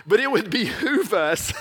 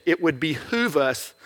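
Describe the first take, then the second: First: "behoove" said again through a laugh; laughing repeat. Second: Slow, weighty "behoove", stretched out; slow stress on behoove. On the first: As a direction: chuckle your way through "behoove". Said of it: "Only in preaching we use word behoove". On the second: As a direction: savour the word "behoove" slowly. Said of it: "I just wanted to use that word". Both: Shown as a demonstration.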